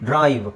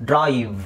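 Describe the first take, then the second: The two takes are said the same way.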